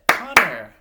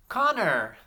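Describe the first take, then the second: First: Connor in two very loud beats; clapped syllables. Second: Connor high and loud, in one piece; high, loud Connor with a falling end; name called out. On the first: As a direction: clap out Con-nor, a beat per syllable. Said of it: "Let's clap it". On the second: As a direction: call out Connor whole for the class to echo. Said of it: "say this name with me". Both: Shown as a demonstration.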